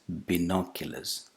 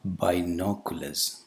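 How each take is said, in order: First: The first vowel is a short single vowel. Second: The first vowel is a diphthong like 'eye'. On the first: The speaker calls it right. "it's a monophthong" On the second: The speaker calls it wrong. "The initial vowel sound is not a diphthong"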